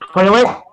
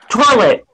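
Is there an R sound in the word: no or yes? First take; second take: no; yes. First: The word is said without an R sound. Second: The word is said with an R sound. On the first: "Instead of saying toilet" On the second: "they say toilet ... in Virginia, there's an R in there"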